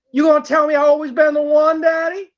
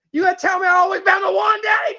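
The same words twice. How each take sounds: First: Coaxing, still contained plea; pleading question. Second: Insistent demand. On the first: Asking Daddy if she's the one, contained pleading. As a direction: press for reassurance without yelling yet. First, calmer take of escalating plea. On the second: Demanding Daddy say she's the one, worked-up pleading. Repeat escalates toward screaming. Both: Acted.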